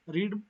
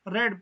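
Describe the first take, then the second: First: The vowel is long, like 'reed'. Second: The vowel is short, like 'red'. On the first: It is the present form of the verb. "First form जब होती है उसको हम रीड use करते हैं, रीड pronounce करते हैं" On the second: It is the past or past participle form. "Second और थर्ड फॉर्म को हम रेड प्रोनाउंस करते हैं"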